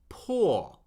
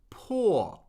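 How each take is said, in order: First: The pitch falls steadily from high to low. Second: The pitch falls steadily from high to low.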